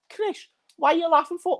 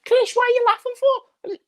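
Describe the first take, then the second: First: It is said in his normal voice. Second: It is said in a much squeakier voice.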